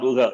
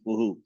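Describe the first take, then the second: First: The h is followed by an a vowel. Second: The h is followed by an u vowel. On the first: The speaker calls it wrong. "not uha" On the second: The speaker calls it right. "it is uhu"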